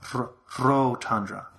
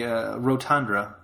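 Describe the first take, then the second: First: The R at the start is rolled. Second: The R at the start is plain, not rolled. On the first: "if you roll your R, you'd say Rotundra" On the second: "So you would say Rotundra"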